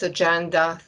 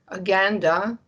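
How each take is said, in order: First: It is pronounced the usual English way. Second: It is pronounced the Latin way.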